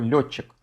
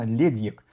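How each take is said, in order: First: The name ends with a 'chik' sound. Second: The name ends with a 'dyek' sound. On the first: This is the form most people are used to. "Я буду произносить его «Летчик»" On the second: This is the form the Gaelic expert gives. "произносится правильно «Ледьек»"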